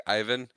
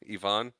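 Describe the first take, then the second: First: "Ivan" as EYE-vuhn, questioning; pronounced EYE-van. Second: "Ivan" as ee-VAHN, questioning; pronounced ee-VON. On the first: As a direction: stress a long "eye" to open "Ivan". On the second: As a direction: stress the open second syllable of "Ivan". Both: Shown as a demonstration. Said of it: "Like, like Ivan?".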